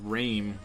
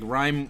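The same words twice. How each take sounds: First: It sounds unlike the ordinary word rhyme. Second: It sounds like the ordinary word rhyme. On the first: The speaker calls it wrong. "which I don't even know if that's even a word" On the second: The speaker calls it right. "rhyme as in when you're rhyming like uh, words together"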